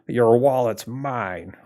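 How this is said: It is said in a put-on gangster voice. "I don't know why I said it in a gangster"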